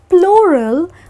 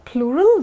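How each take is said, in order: First: The word rhymes with floral. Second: The word does not rhyme with floral. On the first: The speaker calls it wrong. "which rhymes with floral and which is oh so not correct" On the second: The speaker calls it right. "So that's the pronunciation for plural"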